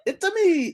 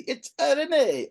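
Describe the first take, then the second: First: High squeaky Mario impression. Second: Slow, high cartoon plumber voice; Mario voice. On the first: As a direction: pitch way up like Mario. Host echoes Mario catchphrase. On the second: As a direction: stretch it out like Mario. Host punning on Mario catchphrase.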